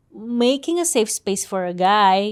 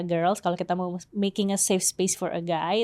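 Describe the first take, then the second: First: Slow and deliberate. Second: Said in the usual way. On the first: Shown as a demonstration. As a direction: draw out each word of "making a safe space for a guy". Repeats the phrase for emphasis.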